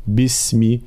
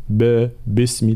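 First: "باسمي" with a clear bi, said as bismi; the ba firmly given its i vowel: bismi; correct kasra. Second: "باسمي" with an open ba, said as basmi; the wrong way: ba, basmi, with no kasra on the ba; wrong vowel demo. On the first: Teacher showing students the correct kasra, a clear "bi" in bismi. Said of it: "لا، بي". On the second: Teacher showing students the mistake, open "ba" in basmi. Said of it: "فلا نقول باسمي". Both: Shown as a demonstration.

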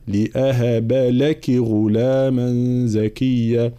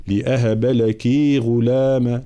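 First: Slow recitation with لك kept short; slow لأهب لك غلاما, لك short. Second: لك with the vowel stretched; the beginner's way: lengthen لك; drawn-out لك; wrong long لك. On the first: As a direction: keep لك short. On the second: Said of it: "من المبتدئين فيقول". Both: Shown as a demonstration.

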